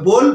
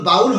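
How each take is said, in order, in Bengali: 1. স্বরধ্বনিটি 'oh' এর মতো করে বলা হয়। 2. স্বরধ্বনিটি 'ow' এর মতো করে বলা হয়। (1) "এটা হবে বোল" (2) "এটা কিন্তু বাউল হবে না"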